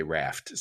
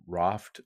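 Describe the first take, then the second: First: "Raft" with a short flat American "a"; American pronunciation. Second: "Raft" with a long broad "ah"; imitated British pronunciation. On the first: Shown as a demonstration. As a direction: say "Raft" to rhyme with "laughed" in American English. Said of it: "I, I say Raft". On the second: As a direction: say "Raft" as "Rahft", the guest's way. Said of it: "when you say Raft".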